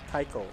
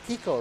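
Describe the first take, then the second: First: The first vowel sounds like 'eye'. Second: The first vowel sounds like 'ee'. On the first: The speaker calls it wrong. "Not Tycho" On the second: The speaker calls it right. "It is Tico, right?"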